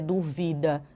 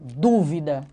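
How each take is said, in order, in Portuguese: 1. A primeira sílaba não é tônica. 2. A primeira sílaba é tônica. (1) "não é duvida" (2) "esse sinal, ele deixa a vogal mais forte"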